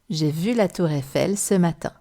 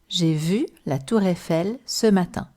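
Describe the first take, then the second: First: It is said all linked without pauses. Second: It is said in word groups with short pauses.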